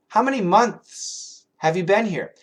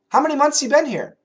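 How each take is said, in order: First: The th sound in months is pronounced. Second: The th sound in months is dropped. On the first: "Every American native English speaker can say it perfectly" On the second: "Without the T H's"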